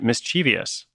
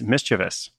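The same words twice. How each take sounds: First: The word has an extra vowel sound added. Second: The word has no extra vowel sound added. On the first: The speaker calls it wrong. "I was adding some extra vowels, at least one extra vowel to that word" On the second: The speaker calls it right. "The correct pronunciation is mischievous"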